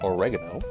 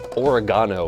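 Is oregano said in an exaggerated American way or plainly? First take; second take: plainly; exaggerated American. First: It is said in a plain, ordinary way. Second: It is said with an exaggerated American pronunciation.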